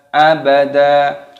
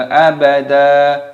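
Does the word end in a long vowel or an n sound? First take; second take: long vowel; long vowel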